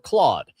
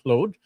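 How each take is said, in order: First: The name is pronounced the usual English way. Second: The name is pronounced the French way.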